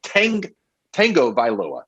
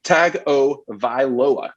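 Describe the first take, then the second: First: Tango Vailoa with an N, TANG-go like the dance; mispronunciation. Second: Tagovailoa slowly broken up as TAG-o-vai-LO-a, no N; correct pronunciation. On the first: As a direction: put an N into Tango Vailoa, restarting after "Tang". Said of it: "regularly and continuously mispronounce it". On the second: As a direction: sound out Tagovailoa slowly, with plain "Tag" first. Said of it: "here is how it's pronounced". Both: Shown as a demonstration.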